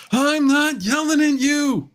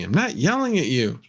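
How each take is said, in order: First: High, slow strained Costanza whine; George Costanza. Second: Said in the usual way. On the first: Retold or imitated. Streamer mocking chat, doing a George Costanza impression. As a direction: channel a frantic Costanza denial. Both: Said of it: "Maybe I'll sound like George Costanza".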